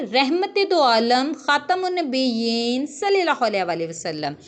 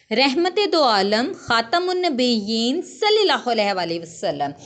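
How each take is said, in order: The two takes are said the same way.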